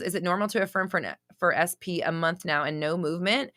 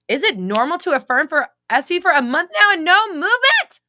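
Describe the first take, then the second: First: The question is read in a plain, neutral way. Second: The question is read in a loud, dramatic way.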